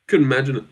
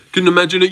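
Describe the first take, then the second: First: Said in the usual way. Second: Louder, higher repeat. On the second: Shown as a demonstration. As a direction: say it again louder and higher for effect. Repeated line, louder take.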